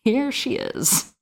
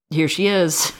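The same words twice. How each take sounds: First: Slow, higher, through a laugh. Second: Said in the usual way. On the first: Shown as a demonstration. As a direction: let the laugh carry it.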